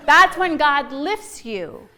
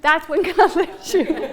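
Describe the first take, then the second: First: Very slow, weighing "that's"; slow emphatic. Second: Slow, with a laugh breaking in before "God"; laughing repeat. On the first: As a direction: drag out "that's when God lifts you". Repeats punchline slowly. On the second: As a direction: laugh mid-line then land it. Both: Real, not acted.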